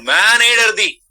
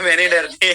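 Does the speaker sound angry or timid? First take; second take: angry; timid. First: It sounds angry and forceful. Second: It sounds timid and laughing, not forceful.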